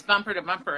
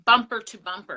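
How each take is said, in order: First: Said in the usual way. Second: "bumper to bumper" punched louder; emphatic repeat. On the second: Real, not acted. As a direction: hit "bumper to bumper" hard for emphasis.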